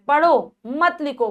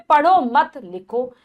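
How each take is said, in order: First: There is a pause right after 'padho'. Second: There is a pause right after 'mat'.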